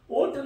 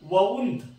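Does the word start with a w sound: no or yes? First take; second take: no; yes. First: The word starts with a plain vowel sound. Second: The word starts with a clear w sound. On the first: The speaker calls it wrong. "ओंट नका म्हणून, बरेच लोक ओंट म्हणतात" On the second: The speaker calls it right. "जमलं तर वौंट हा उच्चार करा, अतिशय सुंदर वाटतो कानाला"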